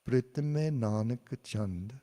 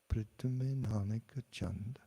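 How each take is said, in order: First: The phrase is said at normal loudness. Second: The phrase is said softly and quietly. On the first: "I'll say a phrase" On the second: "then I'll say it softly"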